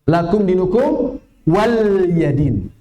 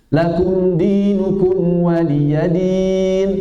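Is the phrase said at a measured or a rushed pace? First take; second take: rushed; measured. First: The vowels are rushed and clipped short. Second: The vowels are given their full measured length.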